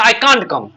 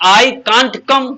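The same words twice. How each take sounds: First: Said in the usual way. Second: Each word stretched out for the class; slow, drawn-out model sentence. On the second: Shown as a demonstration. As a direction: say it slowly, as a model for students. (धीरे-धीरे, खींचकर)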